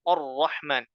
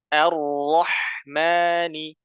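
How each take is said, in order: First: The first vowel is a thick, rounded 'o'. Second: The first vowel is a thin, open 'a'. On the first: The speaker calls it wrong. "tidak boleh membaca o" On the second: The speaker calls it right. "dibaca tipis a"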